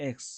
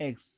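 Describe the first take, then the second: Both takes have the same delivery.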